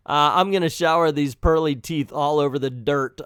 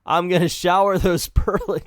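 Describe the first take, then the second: First: Said in the usual way. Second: Reading "I'm gonna shower those pearly" but breaking into laughter; can't get through "pearly" for laughing. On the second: Real, not acted. First take broken by laughter.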